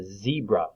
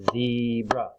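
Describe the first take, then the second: First: Said in the usual way. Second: "zebra" as two stretched beats; split into syllables. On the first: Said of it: "Does that have two syllables?". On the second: Shown as a demonstration. Teacher clapping syllables for children, "zebra" split in two. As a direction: draw out both parts of "zebra". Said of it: "clap out the different parts".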